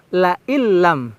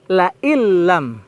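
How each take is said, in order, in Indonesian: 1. Bunyi n menyatu sepenuhnya ke dalam bunyi l. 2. Bunyi n menyatu sepenuhnya ke dalam bunyi l.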